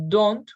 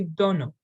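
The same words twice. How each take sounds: First: Said in the usual way. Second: "don't" said like "dunno", with a vowel added; reduced form. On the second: Shown as a demonstration. Teacher showing learners reduced forms, "don't" as "donna". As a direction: say "don't" as DOH-nuh, no T. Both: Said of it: "Using reduced forms".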